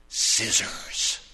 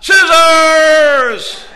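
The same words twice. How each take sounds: First: Low, unvoiced defiant word; through gritted teeth. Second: High, drawn-out full shout; defiant yell. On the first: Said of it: "she gritted her teeth and". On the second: Acted. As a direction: yell it stubbornly at the top of your voice. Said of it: "she yells out".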